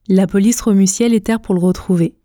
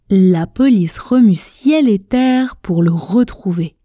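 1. La phrase est prononcée rapidement. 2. La phrase est prononcée à un rythme modéré. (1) "à la vitesse express, à la vitesse rapide. Écoutez, je prononce" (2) "à une vitesse intermédiaire"

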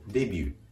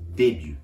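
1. 最後の母音は長く伸ばす。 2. 最後の母音は短いままにする。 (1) "日本語のデビューではなくて" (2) "伸ばしません"

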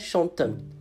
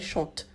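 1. A terminação escrita é pronunciada como uma sílaba nasal. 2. A terminação escrita é muda depois do radical. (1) "Não é chantam, chanta, que é um erro muito que o pessoal falante de língua portuguesa comete" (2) "A gente não pronuncia o ENT, é chante"

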